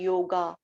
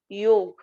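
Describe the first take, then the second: First: The word ends with an added vowel. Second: The word ends on the final consonant. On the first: The word loses its essence. The speaker calls it wrong. "When yog become yoga, it loses all its essence" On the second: The word keeps its original vibration. The speaker calls it right. "You say yog, yog have different vibration"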